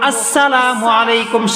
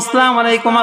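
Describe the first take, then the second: First: The opening glottal stop is clearly pronounced. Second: The opening glottal stop is dropped. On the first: The speaker calls it right. "শুরুতে হামজাকে উচ্চারণ করে বলবো" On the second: The speaker calls it wrong. "হামজার উচ্চারণ নাই, সিন লাম কিচ্ছু উচ্চারণ সঠিকভাবে নাই।"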